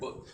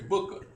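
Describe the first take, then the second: First: The word ends cleanly on the final consonant. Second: The word ends with an extra 'uh' vowel. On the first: The speaker calls it right. "You say" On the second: The speaker calls it wrong. "You don't say booker"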